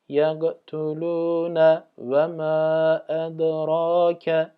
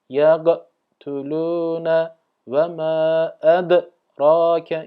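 First: The words flow smoothly together without breaks. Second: The words are split apart like separate pieces. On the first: The speaker calls it right. "Kalkale yapacağım diye ikisini de ayırmayacağız" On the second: The speaker calls it wrong. "ayrı bir kelimeymiş gibi burada yaparsak hatalı bir okuyuş oluruz"

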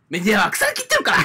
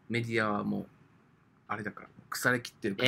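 First: It is said in a light, joking tone. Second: It is said in a serious, earnest tone. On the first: The criticism is offered as a joke. "せめてなんか冗談っぽく言え。" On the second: The speaker means the criticism sincerely. "ガチのトーンで言うなよ。"

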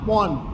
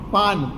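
First: The first vowel is an open 'o' sound. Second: The first vowel is an open 'aa' sound. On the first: This is the Charotar dialect form. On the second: This is the standard form.

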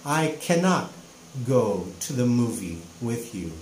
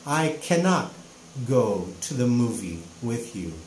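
First: The negative is said as the full word cannot. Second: The same.

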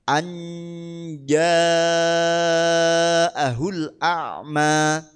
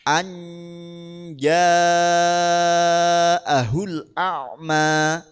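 The two takes are said the same way.

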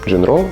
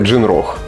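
First: The name ends on a vowel, without a final h. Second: The name ends with a final h sound. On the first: The speaker calls it wrong. "Джинро чи Джинрох?" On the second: The speaker calls it right. "Правильно казати Джинрох"

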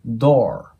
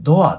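First: It ends straight in an r sound. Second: It ends with an added 'a' vowel. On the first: The speaker calls it right. "ドの後にそのままR が入るだけのイメージです" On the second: The speaker calls it wrong. "皆さんよくドアって発音してしまいがちなんですけど、これ、あの音は入らないんですね"

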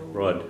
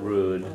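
First: The vowel is short, between 'oo' and 'oh'. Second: The vowel is a long 'oo' sound. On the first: The speaker calls it right. "Kind of a shorter sound and kind of between a U and an O" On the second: The speaker calls it wrong. "not rude"

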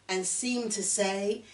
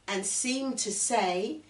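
Both takes have the same delivery.

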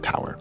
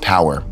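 First: It is said in a Pittsburgh accent. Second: It is said in a standard accent.

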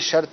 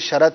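First: The r is closed directly onto the t. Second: A short a vowel is heard after the r. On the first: The speaker calls it right. "درست ہے میری یہ شرط ہے" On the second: The speaker calls it wrong. "تو یہ سب غلط ہے"

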